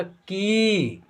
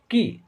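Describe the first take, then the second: First: की said with the i drawn out long; teacher's drawn-out long की; long i sound. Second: की said short and quick, the vowel clipped; teacher's short vowel की; short i sound. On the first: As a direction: stretch की, full open long vowel. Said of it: "यानी खींच करके होगा". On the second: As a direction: keep की brief, the i cut short. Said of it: "उसका उच्चारण में जो है ना कम टाइम लगता है". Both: Shown as a demonstration.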